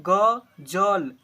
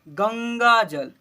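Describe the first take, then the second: First: Broken, halting ग- before जल, syllable cut off; wrong halting reading. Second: Slow, clear गंगा जल with full nasal ं in गंगा; correct careful reading. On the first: Teacher showing pupils the wrong, broken reading of the word. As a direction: stumble on the ग- and break the word apart. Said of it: "बिल्कुल गलत". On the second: Teacher giving pupils the right slow reading after a wrong one. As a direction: say गंगा जल slowly and whole, nasal ं sounded. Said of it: "गंगा जल ऐसे पढ़ लेंगे". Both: Shown as a demonstration.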